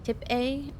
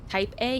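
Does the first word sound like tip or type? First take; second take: tip; type. First: The first word has a short clipped vowel. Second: The first word has a long gliding vowel. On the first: "he says like tip A or something" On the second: "instead of like type A"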